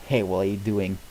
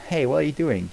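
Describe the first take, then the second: First: Said in the usual way. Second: Hey pushed up high and loud, alarmed; louder, higher protest. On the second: Acted. Donkey yelps at Dragon touching him, louder and higher. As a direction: yelp it out, startled and offended.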